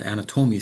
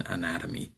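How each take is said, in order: First: First "anatomy" as "ana-TOH-mee", third syllable stressed; shifted stress. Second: Second "anatomy" as "a-NAT-uh-mee", second syllable stressed; standard word stress. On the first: Teacher contrasting the student's version, stress on the third syllable. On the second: Teacher contrasting the English version, stress on the second syllable. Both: Shown as a demonstration. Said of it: "sounds very differently than".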